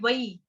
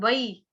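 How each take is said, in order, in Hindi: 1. यह अक्षर संस्कृत के तरीके से बोला जाता है। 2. यह अक्षर संस्कृत के तरीके से बोला जाता है।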